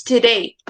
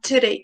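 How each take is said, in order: First: "today" as to-DAY, weight on DAY; stress on second syllable. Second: "today" as TO-day, first syllable stressed; wrong stress demo. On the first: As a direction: lean on the end of "today". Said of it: "Day, exactly, day". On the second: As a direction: put the weight on the start of "today". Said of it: "it is not today". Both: Shown as a demonstration.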